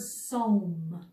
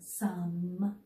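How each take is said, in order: First: The vowel is a long O sound. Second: The vowel is a short U sound. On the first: The speaker calls it wrong. "I might think it was a silent E word where E was bossy and was making O say its name" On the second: The speaker calls it right. "sounds like I hear the U sound in that word, short U"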